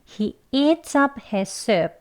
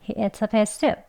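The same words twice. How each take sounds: First: The sentence is spoken slowly and carefully. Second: The sentence is spoken quickly and smoothly. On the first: "문장 천천히 같이 해보겠습니다" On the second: "빨리 발음하면"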